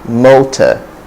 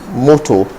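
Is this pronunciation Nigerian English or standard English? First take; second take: standard; Nigerian. First: It is said in standard English, ending in schwa. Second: It is said with a Nigerian English accent. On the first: The speaker calls it right. "But the pronunciation is simply motor" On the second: The speaker calls it wrong. "In Nigerian English, uh, you hear you hear moto"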